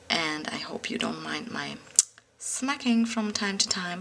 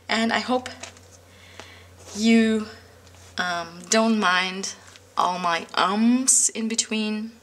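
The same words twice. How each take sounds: First: Soft unvoiced whisper, close to the mic; hushed aside to viewers about her smacking. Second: Said in the usual way. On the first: Real, not acted. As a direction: drop to a confiding whisper.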